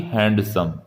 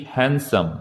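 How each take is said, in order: First: हैंडसम said "HAND-sum", D pronounced; the mistaken "HAND-sum" for हैंडसम; wrong pronunciation, sounded D. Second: हैंडसम said "HAN-sum", no D; correct pronunciation, silent D. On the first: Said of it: "ना कि हैंडसम". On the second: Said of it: "सही उच्चारण होगा हैंडसम". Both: Shown as a demonstration.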